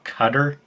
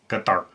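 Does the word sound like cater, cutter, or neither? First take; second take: cutter; neither. First: The word sounds like cutter. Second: The word sounds like neither cutter nor cater. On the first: The speaker calls it wrong. "It's not Cutter" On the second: The speaker calls it right. "it's Qatar"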